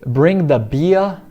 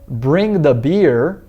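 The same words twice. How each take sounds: First: It is spoken in a southern British accent. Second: It is spoken in an American accent. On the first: "em inglês já estilo B B C" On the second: "em inglês americano"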